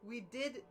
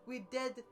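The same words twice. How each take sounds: The two takes are said the same way.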